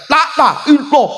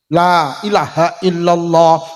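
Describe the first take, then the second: First: The vowels are clipped short and hurried. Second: The vowels are drawn out long. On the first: The speaker calls it wrong. "Kadang wis gak enek dawane blas" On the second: The speaker calls it right.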